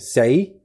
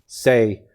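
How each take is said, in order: First: Said with the tone that means death. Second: Said with the tone that means four. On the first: Death. "that means death" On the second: The number four. "it's four"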